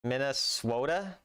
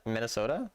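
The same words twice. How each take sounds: First: Minnesota stretched slow with a rising "swo" vowel; drawn-out Minnesota. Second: Minnesota said plainly, mi-nuh-SO-ta; the usual Minnesota, no twang. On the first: Streamer mocks the state name for chat, drawn out. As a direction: drag out Minnesota like a local. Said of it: "Do not say Minnesota". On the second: Streamer repeats the state name to chat, plain. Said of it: "Can you not say Minnesota like that?". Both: Shown as a demonstration.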